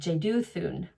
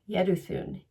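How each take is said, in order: First: The name begins with a J sound. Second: The name begins with a Y sound. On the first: The speaker calls it wrong. "in my English pronunciation, I would say Jeduthun" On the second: The speaker calls it right. "you do not pronounce the J, so it's Yed, Yeduthun"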